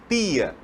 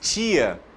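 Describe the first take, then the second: First: It is said in a Recife, northeastern accent. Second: It is said in the speaker's own accent. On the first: "o nordestino, por exemplo, que fala tia, lá em Recife" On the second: "nós que falamos tia"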